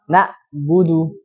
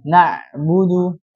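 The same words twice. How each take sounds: First: Na'budu read slowly with a hamzah glottal stop for ain; wrong hamzah. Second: Na'budu slow, ain pressed from the throat. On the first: Teacher shows students the mistaken hamzah reading. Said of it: "bacanya gimana?". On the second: Teacher shows students the correct pressed ain. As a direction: squeeze the ain in na'budu firmly. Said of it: "harus ditekan". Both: Shown as a demonstration.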